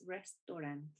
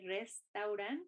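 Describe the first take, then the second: First: The vowel is a single short O. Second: The vowel glides from A to U. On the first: The speaker calls it right. "it's a short O" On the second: The speaker calls it wrong. "we don't say restaurant"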